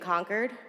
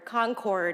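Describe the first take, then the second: First: It is said the way Massachusetts locals say it. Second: It is said the way the listeners say it.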